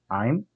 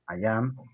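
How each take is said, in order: First: It is said as one short joined word. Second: It is said as two separate full words.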